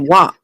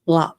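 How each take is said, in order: First: The word begins with a W sound. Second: The word begins with an L sound. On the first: "I said wop" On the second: "It may really be called lop"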